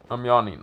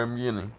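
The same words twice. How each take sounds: First: Said in the usual way. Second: "yawning" slipped into "yinning"; mispronounced "yawning". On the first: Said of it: "No, yawning". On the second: Real, not acted. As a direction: say "yawning" with a wrong first vowel, like "YIN-ing". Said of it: "why the fuck did I say yawning?".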